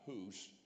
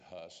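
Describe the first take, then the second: First: The name is said the Eastern European way. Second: The name is said the English way. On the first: "in Eastern Europe is pronounced Hus" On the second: "We pronounce it Huss in the English"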